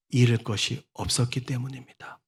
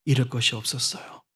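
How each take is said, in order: First: Hushed emphasis. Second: Softer, lower, dwelling on 잃을; hushed emphasis. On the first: Softened emphasis. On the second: Preacher softly restating that Bartimaeus had nothing to lose. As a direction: lean gently on 잃을 and let it sink. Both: Real, not acted.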